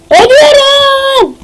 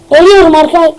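First: Long, high-pitched dying wail; over-the-top death cry; mock death scream. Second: Said in the usual way.

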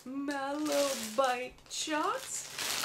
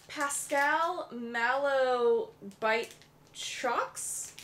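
First: Drawn-out, deliberate syllables; slowly sounding out an odd product name; super slow reading. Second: Slow, careful spelling-out read; reading it super slow. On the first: Shown as a demonstration. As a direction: stretch every word out slowly. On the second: Real, not acted. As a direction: sound out each word slowly. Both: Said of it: "I'm reading it super slow".

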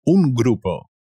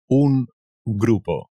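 First: Said in the usual way. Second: Más lento y marcado; despacio. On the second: Shown as a demonstration. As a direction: estirar cada sílaba. (despacio y claro) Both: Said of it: "A group".

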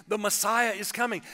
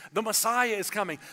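Both takes have the same delivery.

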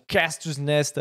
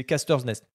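First: Casters Nest said with an English accent, anglicised vowels. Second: Casters Nest said the French way, "kastœʀ nɛst"; French accent. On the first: Plugging the stream to viewers, English accent. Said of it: "avec cet accent-là, s'il vous plaît". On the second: Re-saying the stream name for viewers, in French. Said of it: "avec, en français". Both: Shown as a demonstration.

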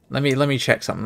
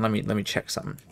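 First: Said in the usual way. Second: Quieter, under the breath; muttered. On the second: Real, not acted. Streamer muttering while checking game. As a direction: mutter it to yourself.

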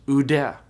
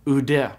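First: Oude said slowly, "oo-deh"; slow careful Greek word. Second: Oude said again, short and falling, "oo-deh"; repeated Greek word. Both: Shown as a demonstration. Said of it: "is pronounced oude".

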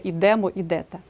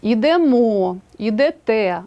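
First: "ідемо, ідете" wrongly stressed on ДЕ; stress on middle syllable. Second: "Ідемо, ідете" with final МО and ТЕ stressed; stress on last syllable. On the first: Teacher shows the wrong stress to avoid, іДЕмо, іДЕте. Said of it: "а не". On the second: Teacher models correct stress, hitting the endings of ідемо, ідете. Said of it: "наголошуємо останній склад". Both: Shown as a demonstration.

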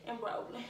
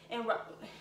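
No difference in how they are said.

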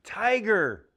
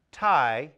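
First: "Tiger." said smoothly as one whole word; blended word. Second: "Tiger." broken into two separate beats, ti and ger; split into syllables. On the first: Teacher showing children the blended word, "Tiger." smooth. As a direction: join the syllables of "Tiger." into one flowing word. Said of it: "When I blend the syllables". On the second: Teacher modeling syllables for children, "Tiger." segmented. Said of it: "Here's one that has two syllables". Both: Shown as a demonstration.

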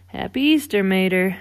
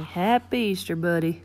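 First: Lightly voiced cheery greeting; a hint of an upbeat race car; Lightning. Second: Lightly voiced easygoing tow truck; relaxed greeting near the usual pitch; a hint of a folksy pal; Mater. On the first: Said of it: "said Lightning". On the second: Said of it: "said Mater". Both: A narrator's reading.

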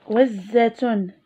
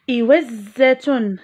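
First: Said in the usual way. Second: إوزة drawn out slowly, each sound held; slow teacher model word. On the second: Shown as a demonstration. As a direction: say إوزة slowly and clearly for children. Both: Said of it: "لاحظوا معي".

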